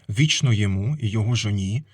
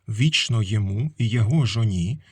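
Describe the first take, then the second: No difference in how they are said.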